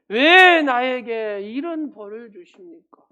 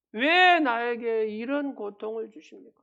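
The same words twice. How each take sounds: First: Slow, much louder anguished cry at God with 왜 stretched out; wailing outcry. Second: Wailing outcry. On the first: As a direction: howl it out slowly like a desperate sufferer blaming God. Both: Retold or imitated. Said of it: "하나님을 향해서 욕설을 퍼붓기도".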